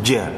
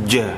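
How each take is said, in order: The two takes are said the same way.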